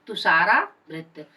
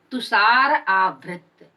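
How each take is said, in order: First: तुषारावृत said as one word with a long आ joining the parts; joined compound. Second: तुषार आवृत said slowly as two separate words, तुषार then आवृत; split into parts. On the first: Teacher showing the sandhi-joined form, said as one word. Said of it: "आ हो गया है जो दीर्घ स्वर संधि है". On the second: Teacher splitting the compound for students, slow and separated. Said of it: "तुषार से र से अ और आवृत से आ". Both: Shown as a demonstration.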